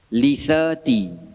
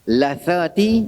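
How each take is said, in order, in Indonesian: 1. Suku kata pertama memiliki vokal 'i'. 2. Suku kata pertama memiliki vokal 'a'. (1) "Doa ini dibaca baris bawah dengan makna gusi" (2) "dibaca dengan lam tu berbaris atas"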